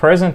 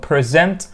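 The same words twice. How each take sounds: First: The stress is on the first syllable. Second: The stress is on the second syllable.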